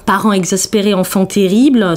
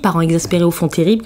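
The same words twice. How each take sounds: First: The phrase is said at a normal pace. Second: The phrase is said quickly, run together.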